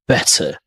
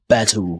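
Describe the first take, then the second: First: The middle consonant is a hard t. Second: The middle consonant is a soft d. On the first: "in British we call it the hard T" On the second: "they tend to sound it with a d sound"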